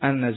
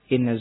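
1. Kata ini diawali dengan vokal 'a'. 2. Kata ini diawali dengan vokal 'i'. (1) "Adapun kalau dibaca dengan fathah" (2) "Kalau dibaca dengan kasrah"

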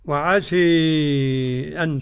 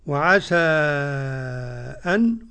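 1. الحركة الأخيرة تميل بشدة نحو الكسرة. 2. الحركة الأخيرة فتحة مفتوحة تماما. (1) "حمزة والكسائي وخلف العاشر بالإمالة" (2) "قرأ ورش بالفتح والتخليل"

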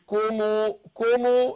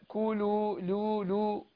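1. الحرف الأوسط يشبه الميم. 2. الحرف الأوسط هو صوت لام واضح. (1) "مش كومو كومو" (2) "لا كولو لو لو"

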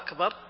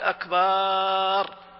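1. الحركة الثانية قصيرة. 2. الحركة الثانية مُمدّة طويلة.

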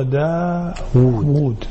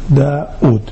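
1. الحرف الأوسط صوت واو. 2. الحرف الأوسط همزة. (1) "وإنما هو داود بواوين" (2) "كثير من العامة يقول داود"

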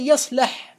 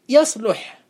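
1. الحركة بعد اللام هي a. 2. الحركة بعد اللام هي u. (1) "يصلح بالفتح" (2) "لأن فعل مضارعه يفعل"

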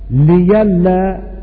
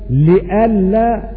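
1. يحل صوت الياء محل الهمزة. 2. يُسمع في الوسط همزة كاملة. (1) "والتسهيل عندئذ بإبدال الهمزة ياء" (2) "التحقيق"

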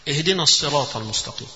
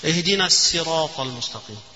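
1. السين في sirat ثقيلة ومفخّمة. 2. السين في sirat خفيفة ومرقّقة.

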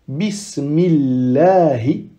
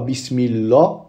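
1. Le son l est léger et fin. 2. Le son l est lourd et plein. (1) "on dit la. Pourquoi? Car le mim a une kasra juste avant" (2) "On ne dit pas bismillah, non"

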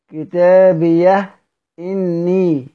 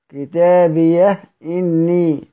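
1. الهاء تنهي الكلمة، ثم تأتي همزة. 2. الهاء تنهي الكلمة، ثم تأتي همزة.

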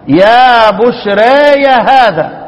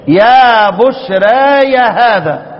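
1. الصوت الطويل مائل نحو الكسرة قليلاً فقط. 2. الصوت الطويل مائل نحو الكسرة قليلاً فقط.

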